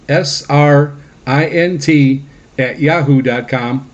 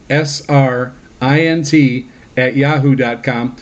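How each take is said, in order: Both takes have the same delivery.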